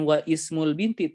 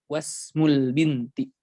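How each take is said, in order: First: The first vowel of ismul is pronounced separately. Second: The first vowel of ismul is dropped and linked. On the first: The speaker calls it wrong. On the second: The speaker calls it right.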